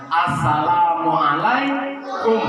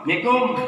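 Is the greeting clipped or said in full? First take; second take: full; clipped. First: The greeting is pronounced with every syllable. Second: The greeting is clipped to its last syllables. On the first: The greeting carries its full meaning. The speaker calls it right. "mengucapkan salam itu harus benar" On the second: The greeting carries no meaning. The speaker calls it wrong. "Itu tidak punya arti dan tidak mendapatkan pahala"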